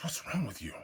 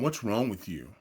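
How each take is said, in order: First: Whispered, soft and sharp. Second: Said in the usual way. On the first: Retold or imitated. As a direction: hiss the question under your breath, no voice. Girlfriend confronting him quietly.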